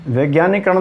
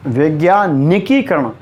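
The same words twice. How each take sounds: First: वैज्ञानिकरण with "nee" straight into करण; wrong form. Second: वैज्ञानिकीकरण with stressed "ni-kee"; correct form. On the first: Teacher repeating the error, syllable left out. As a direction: run वैज्ञानिकरण together, no kee. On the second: Teacher repeating the correct word, kee stressed. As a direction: lean on की in वैज्ञानिकीकरण. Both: Shown as a demonstration. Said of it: "वैज्ञानिकरण नहीं".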